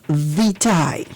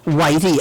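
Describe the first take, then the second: First: The word begins with a V sound. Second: The word begins with a W sound. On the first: The speaker calls it right. "the correct pronunciation is lignum vitae" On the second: The speaker calls it wrong. "It's not whitey"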